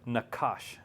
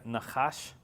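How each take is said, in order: First: The middle consonant is a hard k. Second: The middle consonant is a throaty fricative. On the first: The speaker calls it wrong. "he'll say nakash. It drives me crazy" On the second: The speaker calls it right. "instead of saying nachash"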